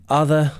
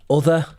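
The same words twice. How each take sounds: First: The first vowel is open and unrounded, like uh. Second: The first vowel is rounded, like in look. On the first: "instead of other" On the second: "Other instead of other"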